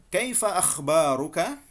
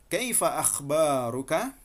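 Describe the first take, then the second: Both takes have the same delivery.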